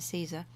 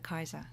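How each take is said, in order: First: It is said the familiar English way. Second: It is said the restored classical Latin way. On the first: "We're used to Caesar" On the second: "the restored classical pronunciation also goes in for Kaiser"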